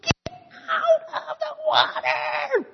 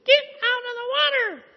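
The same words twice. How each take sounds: First: Even higher, louder and slower angry mouse shout; mouse yelling louder. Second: Very high, loud squeaky mouse yell; a little mouse yelling up at an elephant to get out; tiny mouse yelling. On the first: Angrier mouse repeats his demand to the elephant, shrill slow yell. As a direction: stretch the yell out, fed up and furious. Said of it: "yelled louder". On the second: Mouse yelling at the bathing elephant, high squeaky shout. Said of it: "screaming and yelling". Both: A narrator's reading.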